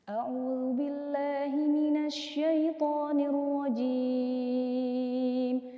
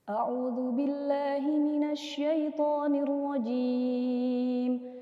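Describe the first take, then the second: First: It is recited at a medium tempo. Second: It is recited at a fast tempo. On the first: "tempo bacaan dengan level sedang" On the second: "hadar ini bacaannya dia temponya cepat"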